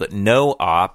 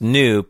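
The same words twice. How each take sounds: First: It is said as two syllables, no-op. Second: It is said as one syllable, noop. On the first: The speaker calls it right. "It's actually a term called NoOp, which is short for No Operation" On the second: The speaker calls it wrong. "wasn't pronounced Noop"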